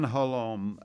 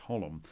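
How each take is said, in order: First: The name is said with a French-Canadian accent. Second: The name is said with a plain English accent. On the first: The speaker calls it wrong. "I've given him a bit of a Quebecois pronunciation there" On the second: The speaker calls it right. "I think it's Holum"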